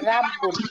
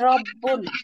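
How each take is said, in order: First: The r is thin, with an open 'ra' vowel. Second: The r is heavy, said with rounded lips. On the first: The speaker calls it wrong. "এরকম বললে কিন্তু ভুল হবে, তখন বারিক হয়ে যাবে" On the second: The speaker calls it right. "ঠোঁটটা গোল করে রব্বুল"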